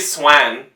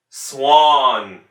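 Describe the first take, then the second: First: The vowel is a flat front 'a'. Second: The vowel is an open back 'aw'. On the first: The speaker calls it wrong. "You don't say swan" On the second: The speaker calls it right.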